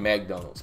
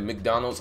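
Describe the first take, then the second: First: It is said with a country Mississippi pronunciation. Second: It is said with the standard pronunciation. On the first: "I used to say McDonald's because that's how we pronounced it in the city that I was from" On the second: "Instead of McDonald's"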